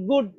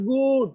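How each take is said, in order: First: "good" with a very short, quick oo; short vowel. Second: "good" with a drawn-out oo; wrongly long vowel. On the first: Teacher models short u for pupils, short vowel. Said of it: "একেবারে short". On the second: Teacher shows pupils what to avoid, long vowel. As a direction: stretch the vowel in "good" as the mistake. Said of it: "not good". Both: Shown as a demonstration.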